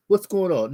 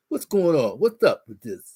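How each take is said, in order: First: Said in the usual way. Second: A husband faking a manly bass; mock manly bass voice. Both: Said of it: "Getting the bass in my voice".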